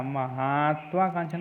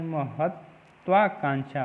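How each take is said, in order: First: महत्वाकांक्षा with long "ma-haat"; maa-haa-tvaakaanksha for महत्वाकांक्षा; wrong pronunciation. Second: महत्वाकांक्षा with short "ma-hat"; slow ma-hat... tvaakaanksha for महत्वाकांक्षा; correct pronunciation. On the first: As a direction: stretch the ha in महत्वाकांक्षा. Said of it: "नहीं". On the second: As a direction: stop on the t, then tvaa, in महत्वाकांक्षा. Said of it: "होता है". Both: Shown as a demonstration.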